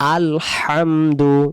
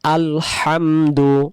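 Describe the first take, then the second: The two takes are said the same way.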